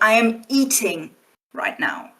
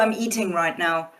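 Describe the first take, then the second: First: The word eating is strongly emphasized. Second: No word is strongly emphasized. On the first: It answers a listener who misheard what the speaker is doing. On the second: A plain statement of what the speaker is doing.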